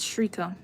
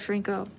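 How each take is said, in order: First: No n sound comes before the k. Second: An extra n sound comes before the k. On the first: The speaker calls it right. "It's Shriko" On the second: The speaker calls it wrong. "I add an N for some reason"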